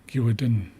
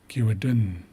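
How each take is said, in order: No difference in how they are said.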